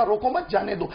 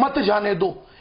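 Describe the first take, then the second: First: रोको मत grouped together, then जाने दो; pause after मत. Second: मत जाने दो as one negative command; मत joined to जाने दो. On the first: Politician moves the comma for host, रोको मत, then a break before जाने दो. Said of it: "कॉमों को उठा के अपन ने मत के बाद लगाया". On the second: Politician explains the comma to host, मत grouped with जाने दो. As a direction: run मत straight into जाने दो, no break after मत. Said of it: "यानी विपरीत हो गया, negative". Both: Shown as a demonstration.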